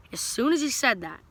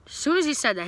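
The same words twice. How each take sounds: First: Said in the usual way. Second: "as soon as he said that" said again much higher; retelling the timing with rising excitement; higher emphatic repeat. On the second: Shown as a demonstration. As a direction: push the repeat up for effect.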